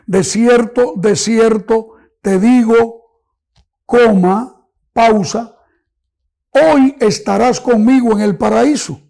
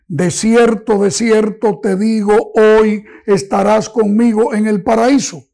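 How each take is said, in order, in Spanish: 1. Hay una pausa justo después de digo. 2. Se lee de corrido, sin pausa. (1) "poner una coma en este momento" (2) "es una expresión continua, no hay ninguna coma que señale una pausa"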